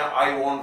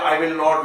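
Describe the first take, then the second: First: Will and not are contracted into one syllable. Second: Will and not are said as two full words. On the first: "short में भी बोल सकते हैं" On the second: "विल के बाद नॉट का प्रयोग करते हैं"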